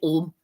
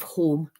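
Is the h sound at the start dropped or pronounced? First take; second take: dropped; pronounced. First: The word starts without an h sound. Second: The word starts with a clear h sound. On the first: "She couldn't pronounce her H's. She called it" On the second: "instead of"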